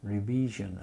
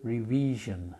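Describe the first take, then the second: The two takes are said the same way.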